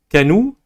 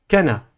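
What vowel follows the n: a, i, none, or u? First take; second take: u; a. First: The n is followed by an u vowel. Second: The n is followed by an a vowel. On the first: "ce n'est ni Kanou" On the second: "ni Kana"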